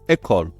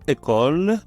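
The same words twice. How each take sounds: First: The first vowel is said open. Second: The first vowel is said closed. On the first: The speaker calls it wrong. "ولم أنطقها école école école" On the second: The speaker calls it right. "نطقت école مغلقة شيئا ما"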